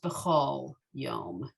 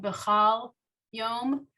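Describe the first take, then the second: First: The second syllable has an 'o' vowel. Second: The second syllable has an 'a' vowel. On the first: "it's usually pronounced Bechol Yom" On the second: "while it's spelled Bechal Yom"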